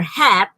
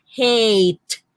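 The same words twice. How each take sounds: First: "hat" with a short A. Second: "hate" with a long, drawn-out A. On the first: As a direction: say "hat" with the short vowel, as in cat. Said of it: "So it is no longer hat". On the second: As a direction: stretch "hate" into a long AY vowel. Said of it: "It becomes a". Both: Shown as a demonstration.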